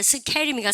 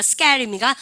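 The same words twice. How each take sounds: First: "스케일입니까" with an airy ㅋ after 스; aspirated k. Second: "스케일입니까" pronounced 스께일, with a hard ㄲ; tense k. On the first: Teacher quizzes class with the wrong option, aspirated k in "스케일입니까". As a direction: say "스케일입니까" with a puff on the k. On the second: Teacher quizzes class with the right option, tense k in "스케일입니까". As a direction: say "스케일입니까" with no air after the k. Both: Shown as a demonstration. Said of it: "쓰 다음에 프트크 발음은 뿌트크".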